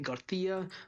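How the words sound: It is said with a Spanish accent.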